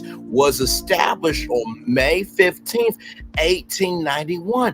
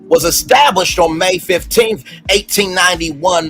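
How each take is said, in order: First: It is spoken very slowly and deliberately. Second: It is spoken at a normal reading pace.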